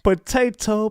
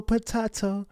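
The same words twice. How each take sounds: First: "Potato" with a long ay, po-TAY-to; playful "Potato" rhymed with tomayto; potato the first way. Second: "potato" with a broad ah, po-TAH-to; playful "potato" rhymed with tomahto; potato the second way. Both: Shown as a demonstration.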